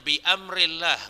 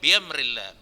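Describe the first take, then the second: First: A glottal stop separates bi from amrillah. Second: Bi runs into amrillah without a glottal stop. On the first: The speaker calls it right. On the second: The speaker calls it wrong. "nggak boleh"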